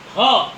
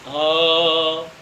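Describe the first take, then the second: First: ह said alone and louder from the throat; throat sound. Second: ह drawn out from deep in the throat, much lower; breathy throat sound. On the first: Teacher showing students the throat sound ह, loud. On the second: Teacher repeating ह for students, low breathy throat sound. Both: Shown as a demonstration. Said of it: "ये कंठ से निकल रही है ध्वनि".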